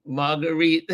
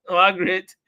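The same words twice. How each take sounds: First: "Marguerite" with three syllables; name mispronounced. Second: "Margaret" in two syllables; name corrected. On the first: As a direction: say "Marguerite" ending in a long ee. Corrects own reading of name. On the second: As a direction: say "Margaret" ending in a short, unstressed -grit. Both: Real, not acted.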